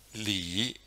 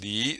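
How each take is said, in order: First: The pitch dips low, then rises. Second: The pitch rises steadily from mid. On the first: "third tone" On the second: "second tone"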